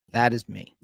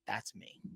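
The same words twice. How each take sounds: First: Plain and firm, owning it; firm admission. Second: Barely audible, sinking into the truth; hushed realization. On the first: Real, not acted. Recovering man telling the host, a firm admission. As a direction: state it flatly as a fact. Repeating it to the listener. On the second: Retold or imitated. Man reading the alcoholic definition, hushed and stunned. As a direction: whisper it like you just saw yourself. Quiet self-recognition at reading.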